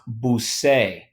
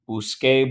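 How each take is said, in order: First: The middle consonant is a soft s sound. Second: The middle consonant is a hard k sound. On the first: The speaker calls it wrong. "this is actually pronounced busé" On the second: The speaker calls it right. "We need a hard C"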